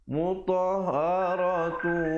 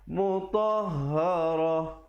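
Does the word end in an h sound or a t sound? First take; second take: t sound; h sound. First: The word ends with a t sound and vowel. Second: The word ends with a soft h sound. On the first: The reciter continues into the next word. "kalau sambung ta marbutah itu dia baris tanwin" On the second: The reciter stops at this point. "kalau saya waqaf di situ"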